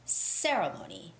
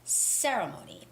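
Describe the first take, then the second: First: The stress falls on the first syllable. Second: The same.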